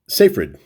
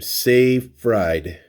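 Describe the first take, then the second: First: The name is said quickly as one word. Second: The name is said slowly as two words.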